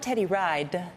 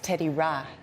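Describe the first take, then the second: First: The name is said in a non-Liberian way. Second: The name is said in the Liberian way. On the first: The speaker calls it wrong. "it's not Teddy Ride" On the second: The speaker calls it right. "because that's how you say it in Liberia"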